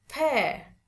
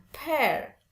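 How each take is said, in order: First: "pear" higher, falling, no final R; British demo of "pear", R dropped. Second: "pear" with the final R sounded; the non-British "pear", R pronounced; American "pear". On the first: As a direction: end "pear" on the open vowel. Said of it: "Kalau British lebih seneng pakai". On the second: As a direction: close "pear" on an audible R. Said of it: "bukan pear". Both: Shown as a demonstration.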